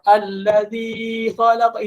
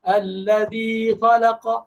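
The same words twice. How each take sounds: First: The vowel of 'zi' is held for three beats. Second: The vowel of 'zi' is held for two beats. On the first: The speaker calls it wrong. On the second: The speaker calls it right.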